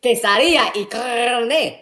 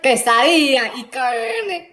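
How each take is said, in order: First: Quesadilla y carne echoed slowly in Spanish style; Spanish pronunciation. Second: Quesadilla y carne in slow, careful Spanish, kesadiya i karne; Spanish pronunciation. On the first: Vowing to match the workers, Spanish pronunciation. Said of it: "I'm gonna say". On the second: Showing how the workers say it, Spanish pronunciation. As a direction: roll out quesadilla y carne like a native. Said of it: "So if they pronounce it". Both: Shown as a demonstration.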